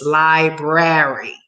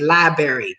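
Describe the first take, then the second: First: The word is said carefully, with every sound. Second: The word is said loosely, with a reduced sound. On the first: The speaker calls it right. "Okay, mommy? Good" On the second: The speaker calls it wrong. "I say library, and my mother almost chokes"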